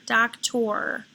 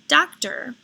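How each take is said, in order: First: The final syllable is said with a full 'or' sound. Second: The final syllable is said with an 'er' sound. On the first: The speaker calls it wrong. "it won't sound right" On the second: The speaker calls it right. "the second sound for O R, which is er in the final position"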